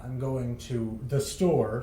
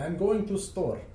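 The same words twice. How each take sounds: First: "I'm going to the store" with THE clearly said; full "to the store", slow and careful; with the article. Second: "I'm going to store" with no THE; higher pitch, "to store" run straight together; article dropped. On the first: Host showing proper English to co-host, article kept. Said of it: "instead of saying". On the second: Host mimicking Russian speakers' English, article dropped. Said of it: "you would just say". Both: Shown as a demonstration.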